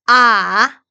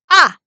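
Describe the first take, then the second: First: The pitch dips down, then goes up. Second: It is a short, forceful, shout-like burst. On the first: "삼성은 아래 위로" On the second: "화났을 때 야! 이렇게 소리 지르잖아요"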